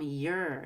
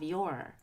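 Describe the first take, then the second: First: The vowel in the word is reduced. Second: The vowel in the word is full. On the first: The speaker calls it right. "It's going to become your" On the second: The speaker calls it wrong. "instead of your"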